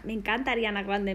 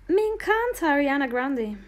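First: Said in the usual way. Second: Really mean it this time, punching "me"; excited repeat. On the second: Real, not acted. To her stream viewers, gushing over [name]: excited, higher and louder.

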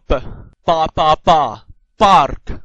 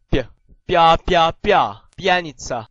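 First: B and ba as plain hard "p, pa". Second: Bia said "pya", palatalized; soft P. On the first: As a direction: drill ba slowly and loudly, no glide, then park. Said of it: "硬音B". (硬音p，慢慢大聲讀ba) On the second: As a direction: drill bia slowly and loudly with a y-glide, then pianica. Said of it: "軟音B". (軟音p，加耶音讀bia) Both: Shown as a demonstration.

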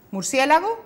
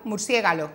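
First: "Murciélago" said correctly and raised high; correct word. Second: "murciégalo" with the l and g swapped; swapped sounds. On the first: Shown as a demonstration. Therapist giving the correct word before the error. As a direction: say "Murciélago" the right way, lifted up. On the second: Retold or imitated. Therapist imitating a child swapping sounds in murciélago. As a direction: say "murciégalo", flipping the last syllables. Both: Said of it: "Sustituyen uno por otro".

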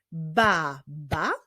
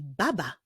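First: "baba" as ba, pause, ba; syllable by syllable. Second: Said in the usual way. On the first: Shown as a demonstration. Teacher solving a word puzzle, "baba" in separated syllables. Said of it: "drugą sylabą jest także sylaba ba".

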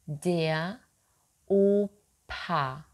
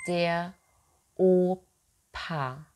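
No difference in how they are said.

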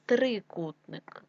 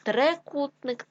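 First: Said in the usual way. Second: Трикутник said as Трекутник; е in first syllable. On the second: Shown as a demonstration. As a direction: open e after Тр in Трикутник.

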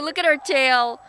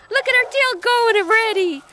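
First: Said in the usual way. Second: Much higher, sing-song voice for the dog. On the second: Real, not acted. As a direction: coo it at the puppy.

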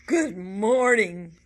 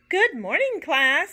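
First: Slow, loud, grumpy greeting; teacher greets the class grumpily. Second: High, loud teacher greeting; teacher answering the class brightly; cheery greeting. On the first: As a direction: drag it out like a cranky teacher. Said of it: "in an unusually grumpy voice". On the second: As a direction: sing it out, pitched up and loud. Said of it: "said Missus Toggle". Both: A narrator's reading.

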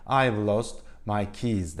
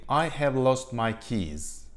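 First: "I've lost my keys" with "I've" blended straight into "lost"; smooth linked native-style English; contracted native form. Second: "I have lost my keys." said slowly, "have" fully pronounced and separate; word by word. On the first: Teacher showing students how natives say it, merged and flowing. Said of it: "iki kelimeyi kaynaştırırlar". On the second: Teacher showing students the unnatural full form, slow and separate. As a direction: stiff uncontracted textbook English. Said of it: "yabancılar genelde böyle söylemezler". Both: Shown as a demonstration.

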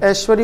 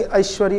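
First: First ऐश्वर्य on a single open "e"; no glide at the start of ऐश्वर्य; mispronounced option. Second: ऐश्वर्य opened with "a-i"; two-part first vowel in ऐश्वर्य; correct option. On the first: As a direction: say ऐश्वर्य as "esh-va-rya". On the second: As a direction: say ऐश्वर्य as "a-ish-va-rya". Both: Shown as a demonstration. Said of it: "सही उच्चारण अभी कर लें".

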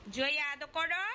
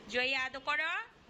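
First: Imitating the child. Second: A lightly voiced child slowly stretching Jaya আদর করো; imitating the child, drawn out. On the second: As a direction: mimic the little one, slowly dragging করো. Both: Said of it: "যে আবার বলে".

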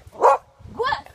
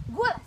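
First: Loud, high sharp command; firm dog commands. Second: Said in the usual way. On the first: Real, not acted. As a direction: bark the command out louder. Repeated speak command, louder.

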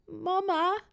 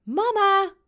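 First: High, thin put-on whimper; whiny tearful little voice. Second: Put-on high, loud child's shout; louder call. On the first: Boy calling for mum from bed, tearful. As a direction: call out like a child about to cry. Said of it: "roept hij met een huilerig stemmetje". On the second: Boy calling mum who hasn't heard, louder. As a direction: call out harder, pitched high. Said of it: "roept Robin iets harder". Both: A narrator's reading.

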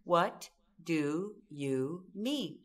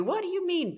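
First: Calm question. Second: High, sharp comeback in a hammed-up fight; mock heated retort. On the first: Shown as a demonstration. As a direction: ask "What do you mean?" calmly, drawing out each word. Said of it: "We come back with these four words". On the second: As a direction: snap it back as part of the quarrel. Acting a couple's quarrel.

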